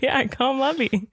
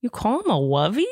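First: Said in the usual way. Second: "wovey" with W for L; rising little-kid question on "wovey"; child's mispronunciation. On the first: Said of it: "I was like". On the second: Retold or imitated. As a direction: toddler asking in surprise, "wovey" instead of lovey. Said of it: "He goes".

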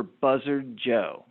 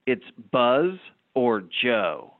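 First: "Buzzard Joe" run together as one name; "Buzzard Joe" said plainly, as one mistaken name; wrong name. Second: "Buzz or Joe" slow and deliberate, keeping the two names apart; "Buzz or Joe" drawn out word by word; corrected name. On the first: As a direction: says "Buzzard Joe" as if it were a bird's name. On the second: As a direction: spell out "Buzz or Joe" slowly as two separate choices. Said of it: "the guy finally replies". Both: Retold or imitated.

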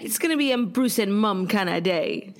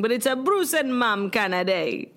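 First: A light put-on British accent; lightly hammed-up British lilt; mock British accent. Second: A light put-on British accent; half-hearted British voice; mock British accent. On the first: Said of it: "I don't even know what accent it is that we're doing". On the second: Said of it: "Mine was just British". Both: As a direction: play at sounding British.

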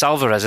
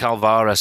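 First: "Alvarez" said the proper way, quicker middle syllable; corrected pronunciation. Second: Manc accent. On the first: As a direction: say "Alvarez" with a light, unstressed middle. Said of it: "I keep calling him Alva". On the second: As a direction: say "Alvarez" the Mancunian way, leaning on "va". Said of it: "sounds better in a Manc accent". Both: Shown as a demonstration.

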